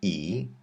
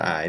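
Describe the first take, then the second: First: The word is said like English 'ee'. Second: The word is said like English 'eye'. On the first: The speaker calls it right. "but E" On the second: The speaker calls it wrong. "not I"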